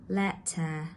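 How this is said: The middle t is a full t sound. "pronounced as a normal t in British English"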